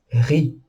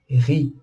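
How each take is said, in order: The two takes are said the same way.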